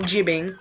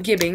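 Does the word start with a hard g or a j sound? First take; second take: j sound; hard g. First: The word starts with a j sound. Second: The word starts with a hard g sound. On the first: The speaker calls it wrong. "not jibbing" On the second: The speaker calls it right. "I pronounce it gibbing"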